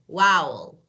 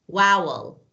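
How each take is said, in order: The two takes are said the same way.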